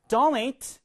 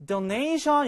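First: "donate" with a strong DO at the start; front stress. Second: "donation" with the weight on NA; later-syllable stress. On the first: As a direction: stress the first syllable of "donate". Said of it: "앞에 강세 있고요". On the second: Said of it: "이렇게 강세 가시면 되는데요". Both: Shown as a demonstration.

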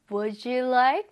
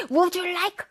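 First: Gentle would you like with a rising end; soft and kind. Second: Abrupt, higher-pitched would you like; unfriendly wrong example. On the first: Teacher modelling a friendly offer for students, soft and kind. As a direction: offer it politely, smoothly. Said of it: "부드럽게". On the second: Teacher showing how not to offer food, brusque. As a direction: demand it curtly, as a mock bad example. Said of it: "아니죠?". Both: Shown as a demonstration.

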